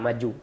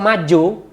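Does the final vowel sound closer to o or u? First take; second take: u; o. First: The final vowel is a clear u. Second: The final vowel sounds close to o. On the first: Moving forward. "Itu maju ke depan" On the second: Eating, said rudely. "U-nya agak agak mendekati O"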